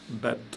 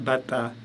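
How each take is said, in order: First: No vowel is sounded after the t. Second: A vowel 'a' is sounded after the t. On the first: The speaker calls it right. "j'ai dit bat" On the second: The speaker calls it wrong. "j'ai pas dit bata"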